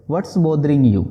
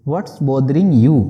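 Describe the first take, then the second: First: Said in the usual way. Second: Slow and a bit louder, word by word; slow model sentence. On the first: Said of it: "मतलब हो जाएगा". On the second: Shown as a demonstration. Teacher modelling the English phrase slowly for students. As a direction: lay it out slowly for learners. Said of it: "बोलेंगे".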